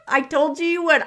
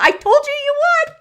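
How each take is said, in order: First: Said in the usual way. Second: Higher, louder and quick, crowing at the viewer; I told you so, nearly squealing; gleeful told-you-so. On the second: Real, not acted. Host teasing a freaked-out viewer: high, loud gleeful crow.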